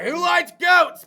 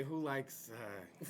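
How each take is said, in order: First: Shouted slowly, much louder, GOATS dropping at the end; mock host shout. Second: Said far softer and lower, trailing off; muted restart. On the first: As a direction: bellow the question like opening a show segment. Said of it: "I was gonna be like". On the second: Shown as a demonstration. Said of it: "I was about to say".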